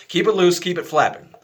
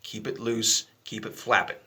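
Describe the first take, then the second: First: Louder and higher, driving the point home; emphatic repeat. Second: Said in the usual way. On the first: Shown as a demonstration. Teacher repeats the key instruction, louder and higher. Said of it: "laughs; I know how that sounds".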